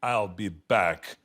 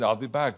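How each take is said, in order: First: Low, slow, deliberate movie delivery; movie catchphrase. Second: Said in the usual way. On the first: Acted. Star obliges a park fan, low movie delivery. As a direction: stretch it out low like the famous film line. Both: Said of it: "the way you said it in the movies".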